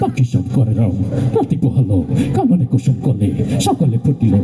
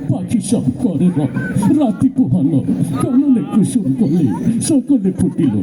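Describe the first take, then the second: First: It is recited in a tough, aggressive voice. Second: It is recited in a weepy, crying voice. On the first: The reciter seems ready to fight. "কথায় কথায় মারামারি করে" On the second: The reciter is sad and tearful. "কান্তি কান্তি কয়"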